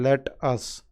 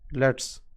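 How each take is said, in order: First: It is said as two full words. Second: It is said as one contracted word. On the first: "instead of using let us"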